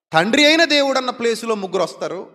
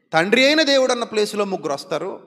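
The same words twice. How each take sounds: The two takes are said the same way.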